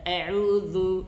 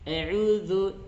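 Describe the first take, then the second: No difference in how they are said.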